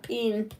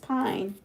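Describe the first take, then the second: First: The vowel sounds like 'ee'. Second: The vowel sounds like 'eye'. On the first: The speaker calls it wrong. "not peen" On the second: The speaker calls it right. "the I is long, so it's pine"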